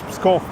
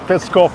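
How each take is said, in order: First: The P runs straight into the S. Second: A vowel is sounded between the P and S. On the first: It names the city. The speaker calls it right. "it's Pskov" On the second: It names a spokesman rather than the city. The speaker calls it wrong. "it's not Peskov"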